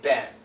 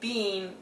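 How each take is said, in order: First: The vowel is a short 'e' sound. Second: The vowel is a long 'ee' sound. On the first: The speaker calls it right. "we say Ben" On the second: The speaker calls it wrong. "We don't say bean"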